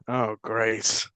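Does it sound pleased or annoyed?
annoyed. It sounds annoyed and sarcastic.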